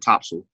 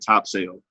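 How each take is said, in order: First: The ending is reduced, not a full 'sail'. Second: The ending is said as a full 'sail'. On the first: The speaker calls it right. "my friend from North Carolina said topsail" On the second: The speaker calls it wrong. "it's spelled top sale. So I'm going to say it the way it's spelled"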